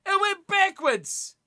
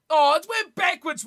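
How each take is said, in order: First: It went backwards drawn out slow, high and louder; slow emphatic repeat. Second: High, loud cry of protest at the ref; surprised protest. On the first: Repeating the complaint about the pass, slow and emphatic. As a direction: spell it out slowly, every word weighted. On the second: Watching the rugby, protesting a pass to the referee. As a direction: call out the bad pass in disbelief. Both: Real, not acted.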